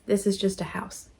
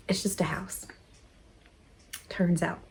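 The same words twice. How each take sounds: First: Said in the usual way. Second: Whispered, breathless, to herself; soft whisper. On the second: Real, not acted. Reflecting on leaving her home, whispered to herself. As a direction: whisper it to yourself, letting go.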